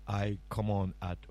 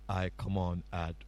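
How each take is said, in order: Both takes have the same delivery.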